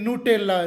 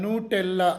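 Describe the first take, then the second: Both takes have the same delivery.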